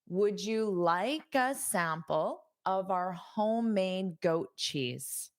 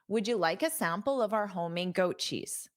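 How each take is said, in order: First: The sentence is spoken slowly. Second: The sentence is spoken quickly. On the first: "I'll say it slowly" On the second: "Now I'll say it quickly"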